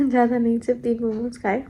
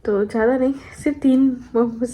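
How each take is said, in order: First: Giggling, quicker repeat; laughing confession. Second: Said in the usual way. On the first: Real, not acted. Confessing to viewers about momos, sheepish laughing repeat.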